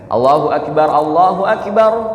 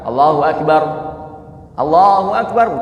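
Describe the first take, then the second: First: The two phrases run together without a pause. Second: A pause separates the two phrases. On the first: The speaker calls it right. "nggak dipisah" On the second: The speaker calls it wrong.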